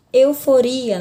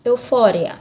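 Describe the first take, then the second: First: EUFORIA stressed on RI, eu-fo-RI-a; Portuguese stress. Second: EUFÓRIA stressed on FÓ, eu-FO-ria; Spanish stress. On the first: Teacher gives the Portuguese example, stress on RI. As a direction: lean on the RI of EUFORIA. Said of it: "na língua portuguesa". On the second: Teacher contrasts the Spanish word, stress on FO. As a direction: hit the FÓ of EUFÓRIA. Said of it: "na língua espanhola". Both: Shown as a demonstration.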